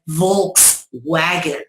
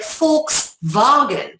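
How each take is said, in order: First: It is said with an American accent. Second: It is said with a German accent.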